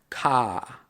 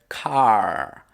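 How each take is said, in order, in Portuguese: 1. A boca se abre bem e não se ouve R final. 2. A língua se enrola e se ouve um R final. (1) "Os australianos cortariam esse I. Em vez de enrolar a língua, você abre mais a boca" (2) "um americano, por exemplo, faria car... Enrolam a língua ali e falam car. Tem esse R no final"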